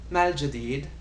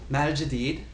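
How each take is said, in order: Both takes have the same delivery.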